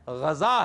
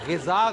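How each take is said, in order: First: The first vowel is an 'a' sound. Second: The first vowel is an 'i' sound. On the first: The speaker calls it right. "गैन के ऊपर जबर है" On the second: The speaker calls it wrong. "गिजा गलत है"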